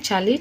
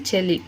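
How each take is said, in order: First: చలి as "chali"; first vowel a. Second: చెలి as "cheli"; first vowel e. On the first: Teacher contrasting two forms, చలి with a. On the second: Teacher contrasting two forms, చెలి with e. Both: Shown as a demonstration. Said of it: "తాళవ్యాలను తారుమారు చేసి".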